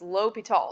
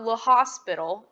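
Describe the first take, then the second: First: It sounds French, like lo-pee-tal. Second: It sounds like the English word hospital. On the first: The speaker calls it right. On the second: The speaker calls it wrong. "It's not"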